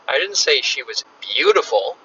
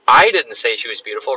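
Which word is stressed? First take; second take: beautiful; I. First: The stress is on "beautiful". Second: The stress is on "I".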